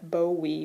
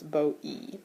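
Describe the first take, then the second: First: A w sound links the two vowels. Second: The two vowels meet with no w sound. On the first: This is the older form with digamma. "that digamma simply drops out" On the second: This is the later form without digamma. "which becomes bo-e"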